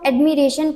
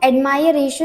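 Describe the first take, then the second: First: The second syllable has a short 'ih' vowel. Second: The second syllable has an 'eye' vowel. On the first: The speaker calls it right. "इसको हम एडमिरेशन pronounce करते हैं" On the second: The speaker calls it wrong. "इसको हम एडमायरेशन नहीं पढ़ते हैं"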